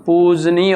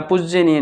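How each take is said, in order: First: पूजनीय with long "poo", then "j-nee-ya"; correct form shown. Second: पूजनीय said as "pujjy-a-neeya"; wrong form shown. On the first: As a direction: say पूजनीय without a doubled j. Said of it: "पूजनीय होता है". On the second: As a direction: say पूजनीय with short "puj" and an extra "ye". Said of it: "पूजनीय नहीं होता". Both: Shown as a demonstration.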